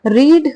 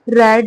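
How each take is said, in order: First: The vowel is long, like 'reed'. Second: The vowel is short, like 'red'. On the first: It is the base form of the verb. "रीड यानी कि first form" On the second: It is the past form of the verb. "रेड पढ़ रहे हैं यानी कि second form या फिर third form"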